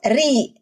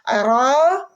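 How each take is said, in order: First: The letter is said with a light, thin sound. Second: The letter is said with a heavy, full sound. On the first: "ke tipis" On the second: "dari tebal"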